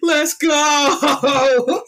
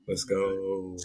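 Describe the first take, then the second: First: It is yelled loudly. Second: It is said quietly and deep.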